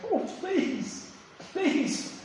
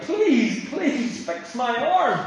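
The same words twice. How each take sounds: First: High, soft whimpering plea; a thin, high, hushed beg for mercy; begging. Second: Slow, insistent begging plea; pleading. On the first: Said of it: "He cried and he begged". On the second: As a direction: drag out please fix my arm like a desperate king. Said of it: "Well, more like". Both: Retold or imitated.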